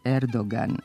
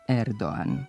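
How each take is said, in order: First: The g in the middle is clearly pronounced. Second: The g in the middle is not heard. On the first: The speaker calls it right. "Godinama smo njegovo prezime ispravno izgovarali" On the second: The speaker calls it wrong. "a ne; u kojem se glas G ne čuje"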